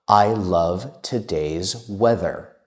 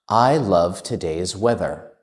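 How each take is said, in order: First: It is spoken at a slow pace. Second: It is spoken at a faster pace.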